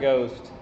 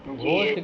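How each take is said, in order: First: The word begins with a plain, unaspirated g. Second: The word begins with a breathy, aspirated g. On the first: The speaker calls it right. "घ है नहीं तो उसको ग पे लाएंगे" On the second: The speaker calls it wrong. "घोस्ट गलत हो गया।"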